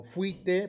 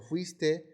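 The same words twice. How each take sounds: First: "fuite" with the S left out; dropped consonant. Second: Said in the usual way. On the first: Shown as a demonstration. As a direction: say "fuite", swallowing the S before the T. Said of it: "No pronunciar ciertas consonantes intermedias". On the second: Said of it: "por fuiste".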